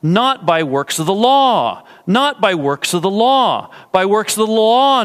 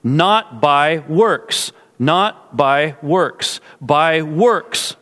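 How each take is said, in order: First: Insistent repeats, each peaking on "law"; stress on LAW. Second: Slow "not by works", landing firmly on "works"; deliberate repeats, with "works" as the emphasized word; stress on WORKS. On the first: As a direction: run through "not by works of the" and land hard on "law". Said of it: "the emphasis is on the word law". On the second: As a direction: space out the words and lean on "works" each time. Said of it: "emphasis ... is on the word works". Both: Shown as a demonstration.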